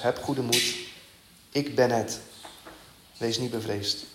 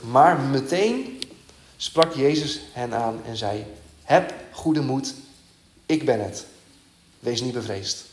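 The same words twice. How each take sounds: First: Softer, gentle repetition of the comfort; preacher telling the congregation not to fear, softly and tenderly; tender reassurance. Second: Slow, weighty reading of the comforting words; preacher reading Jesus calming the disciples, slow and solemn; solemn scripture reading. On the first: Quiet and reassuring, spoken straight to the listeners. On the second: Slow, deliberate Bible reading. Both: Acted.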